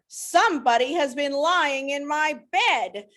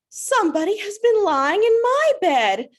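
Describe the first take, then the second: First: It is said in a deep, gruff voice. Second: It is said in a medium voice.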